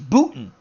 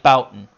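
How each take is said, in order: First: The first syllable sounds like 'boo'. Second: The first syllable sounds like 'bow'. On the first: The speaker calls it right. "another person left me a message saying it's Booten" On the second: The speaker calls it wrong. "I was pronouncing it like Boughton"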